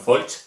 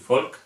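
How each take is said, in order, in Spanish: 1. El nombre termina en sonido ch. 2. El nombre termina en sonido k. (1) "no Folch" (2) "se pronuncia como una K"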